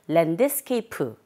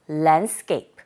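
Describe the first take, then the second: First: The D sound is pronounced fully and clearly. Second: The D sound is very weak, barely heard. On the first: The speaker calls it wrong. "우리 글자 그대로 발음하게 되면 랜드스케이프 하시게 될 텐데" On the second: The speaker calls it right. "원어민의 소리를 들어보니 랜드스케이프. ... D 사운드는 아주 미약하게 들리게"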